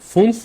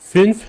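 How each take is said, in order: First: The vowel sounds oo-like and back. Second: The vowel sounds ee-like and rounded. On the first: The speaker calls it wrong. "ফুন্স কেন বলি নাই" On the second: The speaker calls it right. "ফিন্স কেন বলছি"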